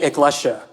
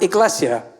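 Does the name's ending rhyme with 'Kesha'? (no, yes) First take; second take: yes; no. First: The name's ending rhymes with 'Kesha'. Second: The name's ending does not rhyme with 'Kesha'. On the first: This is how Filipinos say it. "I say my surname like it rhymes with Kesha" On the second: This is how most people say it. "most folks recognize the name and pronounce it"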